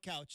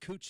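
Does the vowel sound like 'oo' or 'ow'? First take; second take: ow; oo. First: The vowel is an 'ow' sound. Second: The vowel is an 'oo' sound. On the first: This is what newcomers say. The speaker calls it wrong. "everybody's going to call it Couch until you uh, correct him" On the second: This is the local name of the street. The speaker calls it right. "which is Cooch Street in uh, in Portland"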